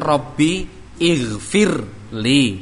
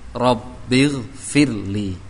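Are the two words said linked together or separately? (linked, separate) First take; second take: separate; linked. First: The two words are said as separate words. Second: The two words are joined into one word. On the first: "Rabbi aslinya kan Rabbi ighfirli" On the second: "dibaca dengan sambung"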